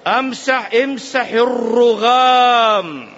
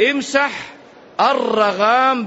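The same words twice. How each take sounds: First: "الرغام" said as "arrughām", u after the r, drawn out slowly; الرغام with damma. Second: "الرغام" said as "aragham", open a on the first letter; الرغام with fath. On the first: Teacher showing the other reading, "الرغام" with a damma, slowly. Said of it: "بالضم". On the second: Teacher showing students the reading, "الرغام" with fatha. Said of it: "بالفتح". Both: Shown as a demonstration.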